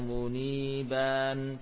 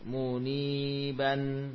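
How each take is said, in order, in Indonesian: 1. Vokal sebelum n akhir dibaca panjang. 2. Vokal sebelum n akhir dibaca pendek. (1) "jangan dibaca panjang" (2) "dibaca tetap pendek"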